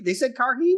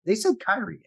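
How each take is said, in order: First: "Karhi" with "kar" and a sounded h, rising high; questioning a pronunciation. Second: High-pitched, quick try at "Kyrian"; checking a pronunciation. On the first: Doubting the name co-hosts heard, "Karhi" said as a high question. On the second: Asking co-hosts how the show said the name, "Kyrian" pronounced with "kai". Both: Shown as a demonstration. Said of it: "how did they say it".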